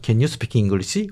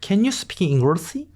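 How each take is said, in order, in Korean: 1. 강한 한국식 억양으로 말하고 있어요. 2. 과장된 미국식 억양으로 말하고 있어요. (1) "너무 콩글리시 하지 마" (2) "너무 굴리지 마세요"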